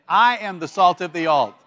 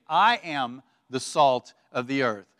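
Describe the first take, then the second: First: Louder, heartfelt declaration; with more heart. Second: Said in the usual way. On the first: Shown as a demonstration. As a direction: lead the room in a loud, convinced declaration. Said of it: "with just a little bit more heart". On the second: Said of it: "with feeble".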